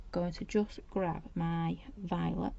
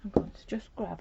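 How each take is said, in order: First: Slowed right down, words drawn out while busy; slow absent-minded murmur as hands work; slow, distracted. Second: Said in the usual way. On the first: Real, not acted. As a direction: drawl it out while concentrating.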